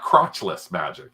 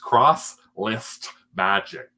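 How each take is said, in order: First: The words run together quickly into one word. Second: The words are said slowly and kept apart. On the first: The speaker calls it wrong. "I know it's not crotchless magic" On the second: The speaker calls it right. "Other people say I say it too fast"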